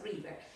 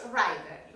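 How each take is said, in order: First: River said ree-ber with a short i; correct river. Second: River said rye-ber with a long i, the mistake; wrong river. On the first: Teacher giving the class the right river: short i. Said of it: "Río es river". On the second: Teacher showing students the wrong river: rye-ber. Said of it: "No me pronuncies river". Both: Shown as a demonstration.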